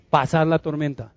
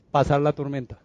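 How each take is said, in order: Both takes have the same delivery.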